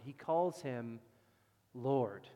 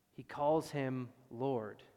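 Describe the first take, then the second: First: Said in the usual way. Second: "calls" leaned on, each word slow and deliberate; slow stress on calls. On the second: Shown as a demonstration. Preacher hammers "calls" slowly to the congregation. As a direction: pastor slows to stress that David calls him Lord.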